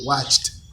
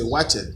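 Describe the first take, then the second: First: The ending is a short t sound. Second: The ending is an extra syllable. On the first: The speaker calls it right. "then it gives you watched" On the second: The speaker calls it wrong. "Some students say watch it. It's not"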